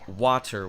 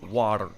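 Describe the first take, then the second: First: The middle consonant is a clear T. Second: The middle consonant is a quick tap. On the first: "which is a T" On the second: "It's a flap, an alveolar flap"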